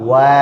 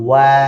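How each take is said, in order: Both takes have the same delivery.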